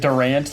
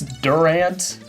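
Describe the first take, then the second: First: It sounds like the basketball player's name. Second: It sounds different from the basketball player's name. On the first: The speaker calls it wrong. "I keep pronouncing it Durant like the basketball player" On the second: The speaker calls it right. "but I think it's Durant"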